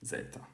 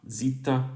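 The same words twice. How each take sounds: First: It is said the classical Greek way. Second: It is said the modern Greek way. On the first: "in classical Greek" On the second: "pronounced uh, zeta in modern Greek"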